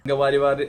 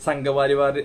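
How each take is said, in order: Both takes have the same delivery.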